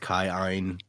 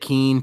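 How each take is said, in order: First: The name is said as 'Kai-Ein'. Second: The name is said as 'Keen'. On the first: This is the official pronunciation. "Technically, it's pronounced Kai-Ein" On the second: This is how the group has been saying it. "we said it Keen"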